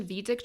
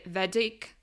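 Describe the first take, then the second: First: "Vedic" with a long ee, as in "see"; long-ee pronunciation. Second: "Vedic" with a short e, as in "bed"; short-e pronunciation. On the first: Speaker retrying an unsure word in English, "Vedic" as VEE-dik. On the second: Speaker trying a word she is unsure of, "Vedic" as VED-ik. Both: Shown as a demonstration. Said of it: "not sure how I pronounce it".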